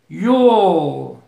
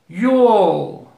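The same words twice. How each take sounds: The two takes are said the same way.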